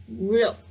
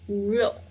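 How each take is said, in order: First: The word is said fully as it is written. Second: The same.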